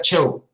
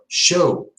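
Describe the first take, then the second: First: The word begins with a hard 'ch' sound. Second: The word begins with a soft 'sh' sound. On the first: The speaker calls it wrong. "You don't say, oh, this is a show" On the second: The speaker calls it right. "No, show"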